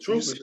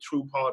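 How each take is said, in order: First: The name sounds like one joined word. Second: The name sounds like two separate words. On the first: The speaker calls it right. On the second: The speaker calls it wrong.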